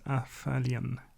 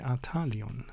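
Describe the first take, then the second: First: The name is pronounced without German sounds. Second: The name is pronounced with German sounds. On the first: The speaker calls it wrong. "Which is actually not how you would pronounce it in German" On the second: The speaker calls it right. "You would say"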